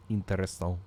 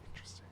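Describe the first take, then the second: First: Odd put-on voice; plain. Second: Breathy whispered word. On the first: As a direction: say it in a funny voice. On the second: Acted. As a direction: whisper it to yourself. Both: Repeats word differently.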